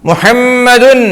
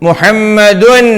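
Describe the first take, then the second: Both takes have the same delivery.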